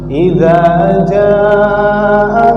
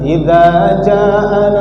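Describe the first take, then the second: First: The vowel in jaa is held long. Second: The vowel in jaa is cut short. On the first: The speaker calls it right. "Tapi idza jaa nasrullahi wal fath" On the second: The speaker calls it wrong. "Jangan pendek membacanya ... Jangan idza jaa nas, salah"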